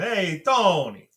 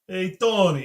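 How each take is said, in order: First: It is said in an Italian accent. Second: It is said in his ordinary accent.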